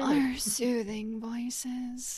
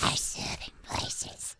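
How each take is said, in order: First: It is said in a less scary voice. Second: It is said in a Gollum impression.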